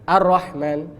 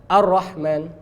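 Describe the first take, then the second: Both takes have the same delivery.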